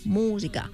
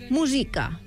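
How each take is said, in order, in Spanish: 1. El acento está en la primera sílaba. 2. El acento está en la segunda sílaba. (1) "normalment diem música amb l'accent fort a la U" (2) "fent destacar la I"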